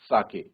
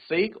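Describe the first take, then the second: First: It is two syllables, starting with an ah vowel. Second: It is one syllable ending in a k sound. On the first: The speaker calls it right. "सा को pronounce करा जाएगा, जैसे फादर में फा" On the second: The speaker calls it wrong. "Not सेक"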